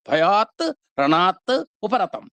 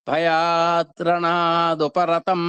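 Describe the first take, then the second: First: The words are said separately with final t sounds. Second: The words run together, t turning into d. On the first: "మూడు పదాలు విడివిడిగా చదువుకున్నాం" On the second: "ఆ మూడింటిని దగ్గర దగ్గర చేర్చి పక్క పక్కనే పెట్టి మనం పలికామనుకోండి"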